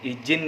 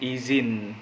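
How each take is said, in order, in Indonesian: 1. Konsonan di tengah itu bunyi J. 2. Konsonan di tengah itu bunyi Z. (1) "bukan izin ya teman-teman" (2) "tapi izin pakai Z"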